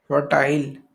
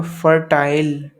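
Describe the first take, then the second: First: Unvoiced whisper of the word. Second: Stretched out and loud, each syllable drawn; slowly and firmly, like writing it on the board; slow clear read. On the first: Teacher repeating a vocabulary word to the class in a whisper. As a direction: breathe the word out with no voice. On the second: Teacher announcing a new word to students, slow and loud. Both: Shown as a demonstration.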